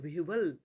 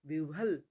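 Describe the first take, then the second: Both takes have the same delivery.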